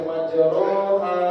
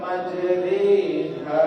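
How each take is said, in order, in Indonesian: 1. Vokal setelah r itu a terbuka. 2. Vokal setelah r itu bunyi seperti e. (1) "tidak boleh dibaca majroha" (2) "tapi dibaca majriha. Ro dibaca ri"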